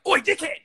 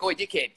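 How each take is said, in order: First: "Oi, dickhead!" yelled much higher and louder at a stranger; aggressive shout. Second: Casual, matey "Oi, dickhead" called across to a friend, a bit higher; friendly call to a mate. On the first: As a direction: bark "Oi, dickhead!" out the car window at someone messing with your car. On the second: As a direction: toss off "Oi, dickhead" like calling a mate to the fridge. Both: Retold or imitated. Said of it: "It's a completely different fucking tone".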